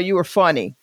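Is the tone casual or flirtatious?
casual. It sounds casual and matter-of-fact. A man is giving a friendly compliment. "if a straight male comedian is approached or anything by a straight man, it's usually like"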